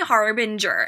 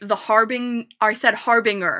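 First: It is pronounced in the standard way. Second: It is pronounced in a guessed, misread way. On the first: This is how the word is normally said. The speaker calls it right. "it's actually harbinger" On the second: The word had only ever been read, never heard. The speaker calls it wrong. "the one time I tried to say harbinger"

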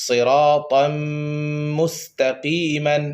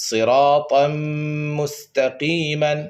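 Both takes have the same delivery.

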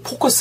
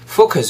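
First: The word begins with a p-like sound. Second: The word begins with a clear f sound. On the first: The speaker calls it wrong. "focus가 아니고" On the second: The speaker calls it right. "f 사운드 focus 이렇게 가겠죠"

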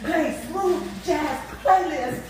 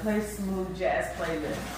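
First: It is said in a frustrated, over-enunciated way. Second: It is said in a calm, ordinary way.

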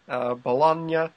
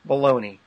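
First: It is said with an Italian-style ending. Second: It sounds like the English word baloney. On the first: "how they would pronounce it in Italy" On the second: "what we would pronounce baloney"

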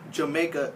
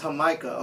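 First: The word begins with a J sound. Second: The word begins with an H sound. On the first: The speaker calls it wrong. "it's not motherfucking Jamaica" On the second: The speaker calls it right. "it's hah-MY-kah"

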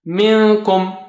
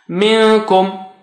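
Both takes have the same delivery.

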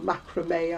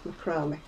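First: It is said the American way. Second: It is said the British way.

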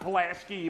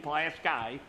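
First: Pulaski is pronounced the way outsiders say it. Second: Pulaski is pronounced the way locals say it. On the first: The speaker calls it wrong. "It's not Pulaski" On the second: The speaker calls it right. "I got to say that right because they get all mad"

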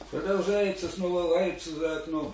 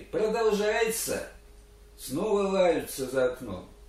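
First: The words run on without a break, in rhythm. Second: There is a clear break after the first word. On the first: The speaker calls it wrong. "А ты поешь кругаля прямо под ритм" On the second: The speaker calls it right. "А ты сделай все-таки. ... Поставь здесь запятую, а может быть и точку даже"

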